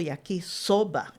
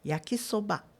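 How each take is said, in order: First: One syllable is said stronger than the others. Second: All syllables are said flat with equal force. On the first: This is how Brazilians say it. The speaker calls it wrong. "que os brasileiros assim pronunciam" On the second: This is how it is said in Japanese. The speaker calls it right. "aprenda no plano"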